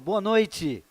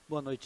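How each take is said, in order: First: The greeting is said strongly, with more energy. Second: The greeting is said weakly, with little energy.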